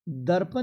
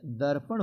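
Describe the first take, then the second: First: दर्पण ending in plain n; tongue-tip n to close दर्पण; wrong pronunciation. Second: दर्पण ending in retroflex ṇ; दर्पण with a flapped last sound; correct pronunciation. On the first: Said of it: "दर्पण नहीं होता है". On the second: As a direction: curl the tongue back to close दर्पण. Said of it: "दर्पण होता है". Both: Shown as a demonstration.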